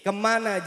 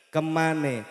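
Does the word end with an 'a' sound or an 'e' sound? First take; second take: a sound; e sound. First: The word ends with an 'a' sound. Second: The word ends with an 'e' sound.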